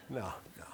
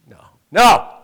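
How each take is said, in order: First: A mock whispered "no, no"; whispered denial. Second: A loud, high mock "no, no"; loud denial. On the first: Pastor jokingly denying he punched the man, whispering. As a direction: hush it like a sly aside. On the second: Pastor jokingly denying he punched the man, loudly. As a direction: protest it out loud. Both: Joke about punching the guy.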